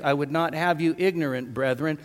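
The pause comes after "ignorant".

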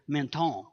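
The name is said with a French pronunciation.

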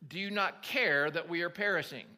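The voice sounds calm and even. It is a composed, formal reading of the disciples' words. The speaker calls it wrong. "I don't think they read it with quite that voice"

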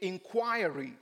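The word is said with a British pronunciation. "we were taught English by the British, and they say inquiry"

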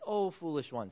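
The words sound soft and tender. The speaker is comforting the listeners.

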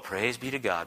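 It is said in a flippant, offhand tone.

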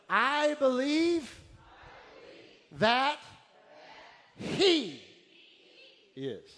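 The word He is strongly emphasized. "But let's amplify the He"

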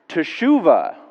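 It is said in an excited, exclaiming way.

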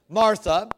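It is said in an American accent, with R.

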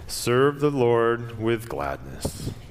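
It is read in a gloomy, flat, joyless way. The speaker calls it wrong. "It's like Eeyore reading the Bible"

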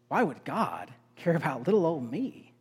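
It sounds like grateful, wondering amazement. It is wonderful that God cares for me. The speaker calls it right. "changing the tone of it. It's"

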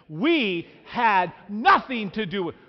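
It is said with strong, forceful conviction.

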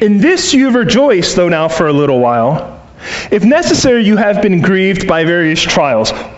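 The pause comes after "for a little while."

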